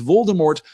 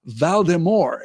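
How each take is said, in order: First: The name is said in its usual pronunciation. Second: The name is said with a French-like pronunciation. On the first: "pronounces Voldemort" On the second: "pseudo French pronunciation, a kind of Valdemort"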